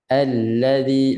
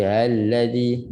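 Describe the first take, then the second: First: "Allazi" opened with a firm, tight a, then a slow flowing l. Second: "allazi" opened with a lazy, loose a. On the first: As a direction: put effort into the first vowel of "Allazi". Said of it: "A, sungguh sikit". ("Allazi" dengan a sungguh, lam mengalir) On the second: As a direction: slacken the first vowel of "allazi". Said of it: "jangan bunyi malas a tu". ("allazi" dengan a yang malas) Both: Shown as a demonstration.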